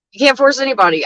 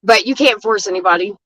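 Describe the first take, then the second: First: "can't" pushed up higher and leaned on; driving the point home about "can't"; emphatic repeat. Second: Said in the usual way. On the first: Real, not acted. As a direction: say it again, hitting "can't".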